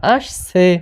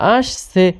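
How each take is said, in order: The two takes are said the same way.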